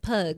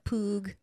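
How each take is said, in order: First: The vowel sounds like 'uh' in 'cup'. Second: The vowel sounds like 'oo' in 'boot'. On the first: This is the usual English way. "instead of pug" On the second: This is how Spanish speakers say it. "here they say the the U like that, like a poog"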